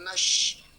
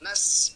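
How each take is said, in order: First: The consonant is a hushing sh sound. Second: The consonant is a hissing s sound. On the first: The speaker calls it wrong. "bukan nash" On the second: The speaker calls it right. "Nas bukan nash, karena beda sin sama shin"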